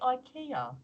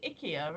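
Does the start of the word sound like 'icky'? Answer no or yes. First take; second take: no; yes. First: The start of the word does not sound like icky. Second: The start of the word sounds like icky. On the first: The speaker calls it right. "I want to say IKEA" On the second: The speaker calls it wrong. "it sounds like, you know, oh, icky"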